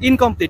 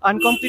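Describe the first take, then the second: First: The word begins with an 'in' sound. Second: The word begins with an 'un' sound. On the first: The speaker calls it right. "আমি ভুল বলিনি" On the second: The speaker calls it wrong. "আগেরবার আনকমপ্লিট বলেছিলাম"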